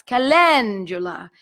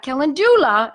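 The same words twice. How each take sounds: First: Calendula slow, ka-len-ZHOO-la, Italian; the correct calendula, drawn out; right pronunciation. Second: Calendula as ke-LEN-du-la, English vowels; the mistaken calendula; wrong pronunciation. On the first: Teacher giving the right way. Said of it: "it's calendula". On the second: Teacher contrasting the wrong way. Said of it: "So not calendula". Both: Shown as a demonstration.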